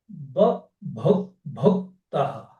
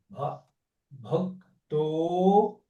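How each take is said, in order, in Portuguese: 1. A palavra termina com som de 'ah'. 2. A palavra termina com som de 'o'. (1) "Termina com A visarga" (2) "e aí virou O"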